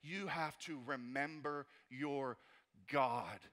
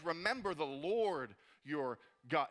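First: Said in the usual way. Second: "Remember the Lord your God" slowed, with "Lord" leaned on and rising; slow stress on Lord. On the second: Shown as a demonstration. Pastor giving the congregation Nehemiah's words, slow with "Lord" stressed. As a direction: draw it out and land on "Lord". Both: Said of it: "he says it like this".

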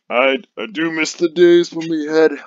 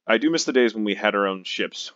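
First: Slow, loud, higher brute bellow; dopey cartoon bellow. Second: Said in the usual way. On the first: Shown as a demonstration. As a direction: boom it out like a dim brute. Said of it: "I can't really do a brute, a brute voice". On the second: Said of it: "I can't do it".

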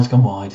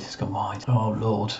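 First: Said in the usual way. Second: Breathed out as a whisper; whispered relief. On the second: Real, not acted. Manager relieved the shot went wide, whispered. Repeating the miss.

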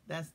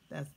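Both takes have the same delivery.

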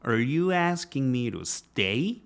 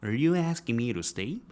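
First: "you" pushed hard, very slow overdone drill; exaggerated drill with "you" stressed. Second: "you" leaned on, slow practice pace; stress on you. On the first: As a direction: lean on "you" and slow the line right down. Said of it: "강세가 정확히 있는 단어는 아닌데 있다고 가정을 하고". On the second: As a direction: keep "you" prominent, slowly. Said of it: "이렇게 약간 오버해서 연습을 해보세요". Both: Shown as a demonstration.

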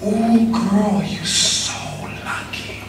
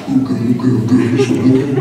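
First: Slow, hushed whisper to a friend. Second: Low, hammed-up girlfriend talk. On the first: Retold or imitated. Girlfriend's friend whispering in her ear, soft slow whisper. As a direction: whisper it softly, drawing it out. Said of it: "heard her friend whisper to her". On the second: Imitating her LA friend talking to her, low hammed-up homegirl voice. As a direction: put on a sassy LA homegirl voice.

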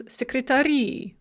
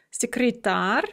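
First: Секретари with the final И stressed; stress on added ending. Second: Секретарь with the А stressed; stress on last syllable. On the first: Teacher showing the plural of secretary, секретари stressed on the ending. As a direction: lean on the last syllable of секретари. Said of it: "that stress is going to shift onto". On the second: Teacher showing the singular of secretary, Секретарь stressed on А. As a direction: lean on the final syllable of Секретарь. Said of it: "a word that's on the last syllable". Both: Shown as a demonstration.

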